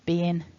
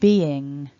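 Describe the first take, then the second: First: The word ends with an n sound. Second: The word ends with an ng sound. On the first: "with a n ending rather than the ng ending" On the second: "the way that you should try to pronounce them"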